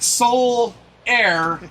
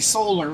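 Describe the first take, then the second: First: The name ends with a 'lair' sound. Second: The name ends with a 'lar' sound. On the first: This is how the player's name is actually said. "they pronounce it Soul Air" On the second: This is how the name would sound read from its spelling. "if it was sounded out like it's spelled, it'd be solar"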